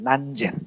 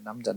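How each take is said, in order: First: The name is pronounced as Nanjen. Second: The name is pronounced as Namjeon. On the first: This is the Chinese reading of the name. "중국에서는 ... 난젠이라고 발음해요" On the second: This is the Korean reading of the name. "우리나라 사람 듣기에는 ... 남전"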